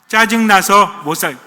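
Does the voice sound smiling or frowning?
smiling. It is said with a smiling voice.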